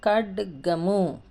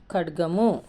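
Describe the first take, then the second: First: ఖడ్గము very slowly, split after a clearly sounded డ; broken-down pronunciation. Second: ఖడ్గము said as one connected word; joined-up pronunciation. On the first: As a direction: draw out each part of ఖడ్గము. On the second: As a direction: run the parts of ఖడ్గము together clearly. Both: Shown as a demonstration. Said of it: "మనము పలుకుతాం".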